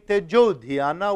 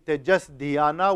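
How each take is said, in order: First: The first word ends with an o sound. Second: The first word ends with an s sound. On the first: The two words are joined by sandhi. The speaker calls it right. "which sounds much more fluid to the tongue" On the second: The two words are kept apart without joining. The speaker calls it wrong. "which brings one extra syllable and breaks the rhythm"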